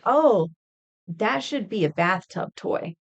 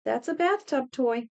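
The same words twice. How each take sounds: First: Mock innocent suggestion. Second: Deadpan verdict. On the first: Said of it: "I would jokingly ... say". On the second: Retold or imitated. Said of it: "I would jokingly".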